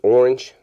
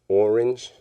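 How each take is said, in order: First: The word is said quickly and compactly. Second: The word is stretched into clearly separate syllables. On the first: The word is taken at face value. "you just say orange" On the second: The word is bent so it can rhyme. "enunciate it and you make it like more than one syllable"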